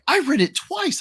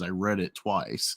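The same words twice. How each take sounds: First: It sounds admiring and impressed. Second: It sounds scornful and fed up.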